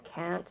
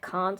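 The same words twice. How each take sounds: First: It is said in an American accent. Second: It is said in a non-American accent. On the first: "Disturbed's an American band" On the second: "my own accent"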